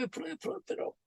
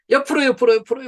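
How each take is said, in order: First: Soft unvoiced whisper of the count. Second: Loud, high stretching call. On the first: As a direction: let the count fade to a whisper. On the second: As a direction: call the count out loud to the room. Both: Shown as a demonstration. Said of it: "stretching instructions".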